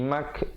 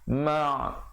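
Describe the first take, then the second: First: The vowel is followed by a k sound. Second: The vowel is followed by a deep throat consonant. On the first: The speaker calls it wrong. "jangan bunyi mak jadi huruf kaf" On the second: The speaker calls it right. "yang betulnya huruf ain"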